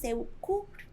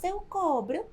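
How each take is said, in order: First: "eu cubro" with u, as the right form; "eu cubro" stated as correct, a bit higher. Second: "eu cobro" with o, as the form not to say; "eu cobro" as the mistake; wrong form. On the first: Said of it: "mas dizemos". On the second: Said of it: "não dizemos". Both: Shown as a demonstration.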